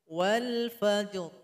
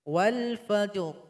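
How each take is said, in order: No difference in how they are said.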